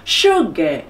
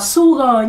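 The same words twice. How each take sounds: First: The word begins with a clear sh sound. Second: The word begins with a plain s sound. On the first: The speaker calls it right. "đọc rõ và mạnh cái âm su" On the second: The speaker calls it wrong. "chứ không đọc là sugar nhá"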